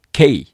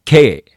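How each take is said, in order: First: K as "kei", e gliding into i; English diphthong. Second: K as katakana "kee", no i glide; Japanese long vowel. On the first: Teacher modelling correct letters, K with an English glide. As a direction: glide tightly to i in K. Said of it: "正確に発音しなければいけません". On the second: Teacher showing the mistake, K with a Japanese long vowel. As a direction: hold a long "e" in K. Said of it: "これも間違いですね". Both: Shown as a demonstration.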